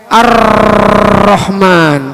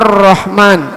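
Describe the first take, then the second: First: The r is trilled with many vibrations. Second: The r vibrates only once. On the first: The speaker calls it wrong. "ditambah getaran. Enggak boleh" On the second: The speaker calls it right. "jangan terlalu banyak getar, sekali aja"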